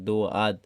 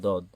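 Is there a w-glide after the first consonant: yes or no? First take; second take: yes; no. First: A w-like glide follows the first consonant. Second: No glide follows the first consonant. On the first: The speaker calls it wrong. "দোয়াদ বলে অনেকে ... এই দোয়াদ হবে না" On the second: The speaker calls it right. "দদ হবে"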